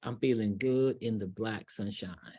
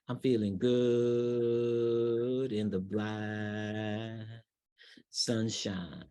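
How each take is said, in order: First: The phrase is spoken quickly and energetically. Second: The phrase is spoken slowly and relaxed. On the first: It feels more exciting and less relaxed. "If I say it fast" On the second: It feels laid back, like being on the beach. "That feels very laid back and very relaxed"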